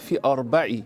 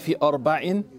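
First: The final word ends without an n sound. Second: The final word ends with an n sound. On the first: The line keeps its meaning and rhythm. The speaker calls it right. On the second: The meaning or the rhythm of the line changes. The speaker calls it wrong.

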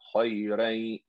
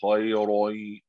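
First: The r sound is light and thin. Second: The r sound is heavy and thick. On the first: The speaker calls it right. "There's no tafkhim on the ra" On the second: The speaker calls it wrong. "Don't say khayroi"

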